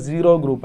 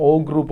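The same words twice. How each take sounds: First: "zero group", with the full word zero; pronounced as zero. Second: "O group", oh in place of zero; rejected pronunciation O. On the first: Teacher showing students how to name the group, pronounced as zero. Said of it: "just pronounce it is like". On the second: Teacher showing the name not to use, pronounced as O. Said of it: "That is never pronounced as". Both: Shown as a demonstration.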